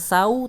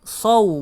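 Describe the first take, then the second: First: The s sound is plain and light. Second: The s sound is emphatic and heavy. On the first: The speaker calls it wrong. "bukan sau" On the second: The speaker calls it right. "Huruf sod berarti saw"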